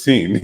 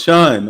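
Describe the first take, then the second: First: "Scene" with an s sound, like the word scene; "Scene" read off the spelling with an s start. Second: "Sean" with a sh sound, like shawn, insisted louder; "Sean" said shawn, with a louder correcting push. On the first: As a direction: pronounce "Scene" as seen, starting with a hissed s. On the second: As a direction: pronounce "Sean" as shawn, firmly. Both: Retold or imitated. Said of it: "That's how you pronounce that".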